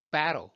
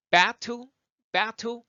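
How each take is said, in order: First: Battle as "ba-ro", falling; American flap in battle; easy flapped T. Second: Battle pitched up with a crisp T; released, puffed T in battle; full T sound. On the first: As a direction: tap the T of battle like an R. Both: Shown as a demonstration. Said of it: "말하기가 편하다고요".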